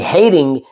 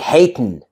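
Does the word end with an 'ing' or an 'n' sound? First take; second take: ing; n. First: The word ends with a full 'ing' sound. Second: The word ends with a plain 'n' sound. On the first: "Instead of saying hating" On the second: "you say hatin'"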